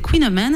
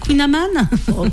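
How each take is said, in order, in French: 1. Il se prononce avec un accent anglais. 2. Il se prononce avec un accent français. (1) "si je le dis à l'anglaise" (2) "il faut dire Queen of Man"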